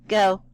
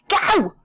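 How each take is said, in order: First: It is said calmly. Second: It is said excitedly.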